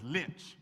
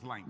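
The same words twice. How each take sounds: First: Said in the usual way. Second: Lynch said with a long I, like "lainch"; older generation's pronunciation. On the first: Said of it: "hardly ever said, pronounce it as". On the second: Retold or imitated. Speaker shows how Grandma's generation said the town, Lynch as "lainch". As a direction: stretch the vowel of Lynch into "eye". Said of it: "They pronounce it as Lynch".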